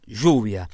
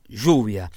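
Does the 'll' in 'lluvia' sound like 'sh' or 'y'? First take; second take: sh; sh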